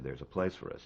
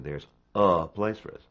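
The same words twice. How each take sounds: First: The word "place" is stressed, and "a" is light. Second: The word "a" gets as much weight as "place". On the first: The speaker calls it right. "You say" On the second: The speaker calls it wrong. "you don't say"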